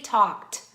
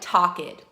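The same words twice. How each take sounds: First: The ending adds no extra syllable. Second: The ending is said as an extra syllable. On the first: The speaker calls it right. "but we say talked" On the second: The speaker calls it wrong. "we don't pronounce it like talked. It looks like it should be that"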